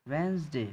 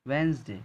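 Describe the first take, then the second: Both takes have the same delivery.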